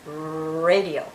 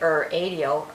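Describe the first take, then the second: First: The word starts directly with a growled R. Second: The word starts with an 'er' vowel sound. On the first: The speaker calls it right. "The letter R actually growls at you" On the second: The speaker calls it wrong. "We don't say er adio"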